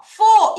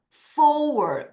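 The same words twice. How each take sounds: First: FOUR as a loud, high, single 'fo' without r; wrong pronunciation. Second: FOUR gliding from o-u down into r; correct pronunciation. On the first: Teacher warns pupils this is not four, wrong pronunciation. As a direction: punch FOUR out as bare 'fo'. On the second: Teacher corrects the wrong four for pupils, correct pronunciation. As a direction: stretch FOUR into 'fo-ur', falling. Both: Shown as a demonstration. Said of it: "이거 아니라고".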